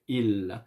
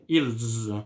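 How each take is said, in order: First: The word ends without any s sound. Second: The word ends with an audible s sound. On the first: The speaker calls it right. "No, I say il" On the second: The speaker calls it wrong. "I don't say ils"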